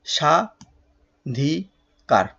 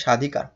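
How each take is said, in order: First: স্বাধিকার drawn out as sha, dhi, kar; long gaps inside স্বাধিকার, very slow; three separate syllables. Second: Said in the usual way. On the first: Shown as a demonstration. Teacher dividing the word in three, স্বাধিকার syllable by syllable. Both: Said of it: "তিন ভাগে ভাগ করা যাচ্ছে".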